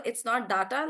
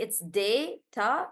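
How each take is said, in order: First: Data with a short a, dahta. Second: Data said slowly as dayta; standard data. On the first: Teacher contrasting how data is said, dahta. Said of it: "like we say". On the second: Teacher giving the usual way to say data, dayta. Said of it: "but generally". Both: Shown as a demonstration.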